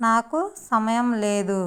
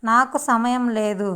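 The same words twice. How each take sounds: The two takes are said the same way.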